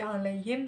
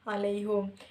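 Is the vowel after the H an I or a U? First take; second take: I; U. First: The vowel after the H is an I sound. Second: The vowel after the H is a U sound. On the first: "huruf hanya itu kan berbaris kisrah" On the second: "diganti dengan baris dhamma"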